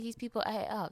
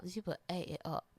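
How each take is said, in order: First: Said in the usual way. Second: Softer, dropped-down echo; softer British-accented echo; quieter repeat. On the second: Real, not acted. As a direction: let it fall away quietly. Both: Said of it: "when I tell you".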